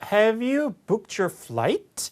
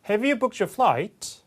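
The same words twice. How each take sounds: First: The pitch rises at the end. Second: The pitch falls at the end. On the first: "인토네이션이 올라갑니다" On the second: "flight 이렇게 떨어지면서"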